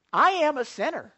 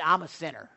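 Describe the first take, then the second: First: "I am a sinner" higher, with stress on "I"; emphatic confession. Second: Said in the usual way. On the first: Real, not acted. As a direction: hit "I" high, then fall through "am a sinner".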